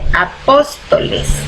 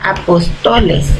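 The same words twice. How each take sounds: First: The stress is on the second syllable. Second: The second syllable is not stressed. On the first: "agregando la tilde dice" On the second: "Si nosotros quitamos la tilde en la primera O a esta palabra, dijera"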